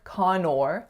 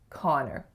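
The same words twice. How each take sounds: First: The second syllable has a full 'or' vowel. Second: The second syllable has a reduced 'er' vowel. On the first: The speaker calls it wrong. "it looks like or, so it looks like Connor, but we don't say or" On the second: The speaker calls it right. "we say er. So the name is Connor"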